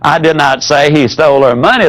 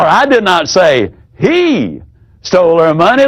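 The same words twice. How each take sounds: First: It is said evenly, with no word stressed. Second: The stress falls on the word he.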